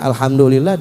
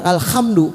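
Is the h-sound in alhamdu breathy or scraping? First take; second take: breathy; scraping. First: The h-sound is a smooth breathy throat sound. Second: The h-sound is a rough scraping kh sound. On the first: The speaker calls it right. "Hanya hak kecil harusnya" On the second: The speaker calls it wrong. "waduh pakai kho. Salah"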